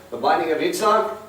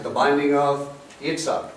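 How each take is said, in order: First: Yitzhak lands as the key word, binding lighter; teacher repeating with the name stressed. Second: Binding hit hardest, the name said lightly; teacher stressing binding. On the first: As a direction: land hard on the name Yitzhak. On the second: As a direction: lean on the word binding. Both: Shown as a demonstration.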